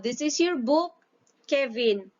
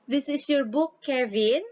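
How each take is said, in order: First: It is said as a statement, falling at the end. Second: It is said as a question, rising at the end.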